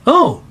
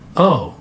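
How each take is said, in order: First: It sounds genuinely interested. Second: It sounds dismissive and uninterested. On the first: The listener is interested in the topic. "one of the most basic is" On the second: The listener finds the topic not interesting. "it means it's not interesting"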